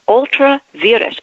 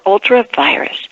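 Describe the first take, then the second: First: The second word does not sound like 'virus'. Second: The second word sounds like 'virus'.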